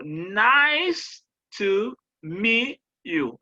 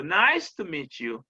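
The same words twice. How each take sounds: First: NICE stretched high and loud, each word slow and separate; stress on NICE. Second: Said in the usual way. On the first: Shown as a demonstration. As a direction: spell out "nice to meet you" slowly, leaning hard on NICE. (accent tonique sur « nice », allongé et monté, mots lents et détachés) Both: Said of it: "il y a des accents toniques".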